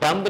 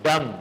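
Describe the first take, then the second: First: The word ends with an audible b sound. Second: The word ends on the m sound. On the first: The speaker calls it wrong. "डम्ब नहीं पढ़ना है इसको" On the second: The speaker calls it right. "इसमें बी silent है"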